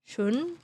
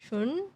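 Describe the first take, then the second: No difference in how they are said.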